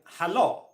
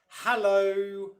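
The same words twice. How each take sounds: First: The stress falls on the second syllable. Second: The stress falls on the first syllable. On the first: The speaker calls it wrong. "where you stress the second syllable even more" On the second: The speaker calls it right. "the first syllable there, ha, is the one that's stressed"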